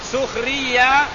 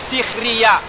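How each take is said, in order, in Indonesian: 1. Vokal pertama adalah bunyi 'u'. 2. Vokal pertama adalah bunyi 'i'.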